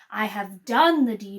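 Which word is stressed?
done. The stress is on "done".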